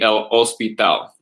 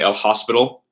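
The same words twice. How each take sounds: First: The h at the start is silent. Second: The h at the start is pronounced. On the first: The speaker calls it right. "It'd be" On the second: The speaker calls it wrong. "You would never say"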